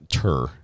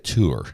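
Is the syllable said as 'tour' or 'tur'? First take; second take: tur; tour. First: The vowel is a short 'er' sound, like 'tur'. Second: The vowel is a long 'oo' sound, like 'tour'. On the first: It sounds plainly American. "which sounds very American" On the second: It sounds more refined and French. "I like to add the tour at the end"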